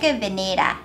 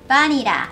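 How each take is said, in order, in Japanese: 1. その単語は v の音で始まります。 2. その単語は b の音で始まります。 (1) "V から始まるので、しっかり唇にうー歯を置いて" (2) "バニラではなく"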